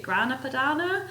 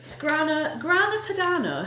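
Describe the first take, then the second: First: "Grana Padano" asked with a rising end; "Grana Padano" with a doubtful upward lilt; questioning pronunciation. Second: "Grana Padano" lifted high, unsure; tentative pronunciation. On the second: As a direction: try out "Grana Padano" on a raised pitch. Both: Real, not acted. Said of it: "I don't know if that's how you say it".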